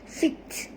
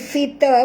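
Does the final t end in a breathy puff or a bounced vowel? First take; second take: breathy puff; bounced vowel. First: The final t ends with a light breath. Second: The final t bounces with a short vowel. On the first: The speaker calls it right. "Ini adalah hamas, fit. Sikit saja bunyi angin dia" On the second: The speaker calls it wrong. "jangan bunyi fita pula, itu dah jadi qalqalah"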